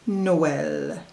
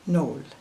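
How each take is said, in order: First: Both vowel sounds are heard separately. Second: The two vowels merge into one sound. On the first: The speaker calls it right. "pronounce them with the tréma" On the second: The speaker calls it wrong. "Without the tréma, it would be"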